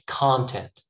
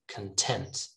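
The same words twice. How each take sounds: First: The stress is on the first syllable. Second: The stress is on the second syllable. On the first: It is the noun. "the stress is in the first syllable here" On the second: It is the adjective meaning happy. "the stress moves to the second syllable"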